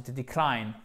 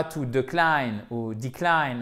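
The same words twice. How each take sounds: First: "decline" with short I, falling on CLINE; bonne prononciation. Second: "decline" said wrongly, first vowel off; mauvaise prononciation. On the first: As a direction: correct it: "decline", weight on the second syllable. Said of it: "non, c'est to decline". (« decline » accentué sur la fin) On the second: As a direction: show two faulty versions of "decline". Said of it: "c'est pas to decline ou decline". (« decline » mal prononcé, première voyelle fautive) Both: Shown as a demonstration.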